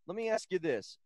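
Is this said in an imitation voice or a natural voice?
natural. It is said in a plain, natural voice.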